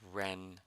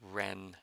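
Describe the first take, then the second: Both takes have the same delivery.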